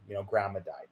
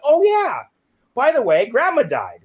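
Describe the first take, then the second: First: Low, soft, understated delivery; subdued news-breaking. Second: Loud, high, cheerfully offhand; breezy afterthought. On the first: Cousins telling the speaker grandma died, subdued. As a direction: quietly pass on sad news. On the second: Telling mom on the phone grandma died, breezy. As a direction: blurt it out like trivial good news. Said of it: "I said it like that". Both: Retold or imitated.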